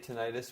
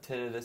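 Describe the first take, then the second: First: It is said the common American way. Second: It is said the common Canadian/British way. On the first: This is the usual form in the United States. "So in the U S, people might say tinnitus more so" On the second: This is the usual form in Canada and Britain. "in Canada and in, in Great Britain, places like that, uh, tinnitus seems to be more popular"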